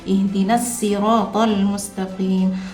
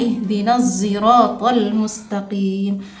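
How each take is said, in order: First: Sirat begins with a plain s sound. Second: Sirat begins with an s blended toward z. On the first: "Shadnya dibaca dengan sin" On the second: "membaca dengan ismam pada huruf za"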